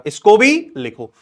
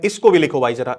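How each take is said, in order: First: भी stressed, slower and louder; insistent repeat. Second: Said in the usual way. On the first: Shown as a demonstration. Teacher pressing a student to write this too, stressing भी. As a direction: lean on भी, slow it down.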